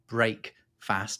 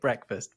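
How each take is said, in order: First: It is split into two full words. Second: It is run together as one reduced word. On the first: This shows its original meaning of ending the night's fast. "it is break fast as it's written" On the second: This is the everyday way of saying it. "we say it breakfast"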